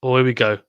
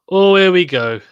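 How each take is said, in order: First: Said in the usual way. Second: Higher and louder, real excitement; excited. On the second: Real, not acted. Watching Murray's big point on stream, excited outburst. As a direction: jump up as the point starts.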